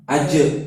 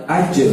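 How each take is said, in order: First: "aje" with a short flat schwa ending; wrong qalqalah. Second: "aje" with the jim bounced back clearly; "aje" punched loud, rebounding on the jim; bouncing qalqalah. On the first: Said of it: "bukan seperti itu". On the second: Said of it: "Kalau dia jim berarti dia". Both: Shown as a demonstration.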